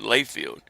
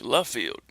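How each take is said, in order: First: The first syllable has a 'lay' vowel. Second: The first syllable has a short 'luh' vowel. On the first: The speaker calls it wrong. "pronounced differently... Layfield" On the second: The speaker calls it right. "It's French"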